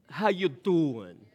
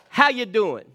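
First: It is said in a put-on mafia voice. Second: It is said in his normal voice.

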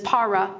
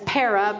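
First: The word is said in the Greek way. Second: The word is said in an Anglicized way. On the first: "but the Greek pronunciation is para" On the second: "some people say it as para"

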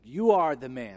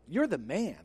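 First: It sounds like a grave, pointed accusation. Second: It sounds like casual, admiring praise.

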